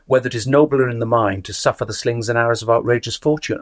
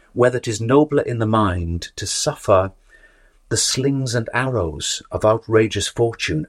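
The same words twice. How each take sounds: First: The whole line in one unbroken breath, no pause after "suffer"; run-on phrasing. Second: A clear pause after "suffer", then "the slings and arrows of outrageous fortune" slower; pause at line end. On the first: Student insisting it's one sentence, running it through without a break. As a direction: run "suffer" straight into "the slings". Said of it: "you'd have to go". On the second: Teacher showing how to observe the line ending, with a pause. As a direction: stop on "suffer" and search for the next thought. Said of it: "bounce off the end of that line".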